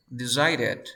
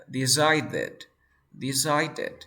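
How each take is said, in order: First: "decided" with the middle D flapped like Spanish R; tapped D. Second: "decided" in separate syllables, middle consonant fully stopped; full D sound. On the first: Teacher showing D between vowels, "decided" with a tap. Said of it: "D entre dos sonidos de vocales". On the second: Teacher applying the ED rule, "decided" with full stop consonant. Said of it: "antes de esta E D hay una D". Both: Shown as a demonstration.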